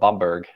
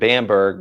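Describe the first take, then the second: First: The name is said with a German pronunciation. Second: The name is said with an American pronunciation. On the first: This is how Germans say the name. "I think the Germans call it Bamberg" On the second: This is how Americans say the name. "Americans pronounce it Bamberg"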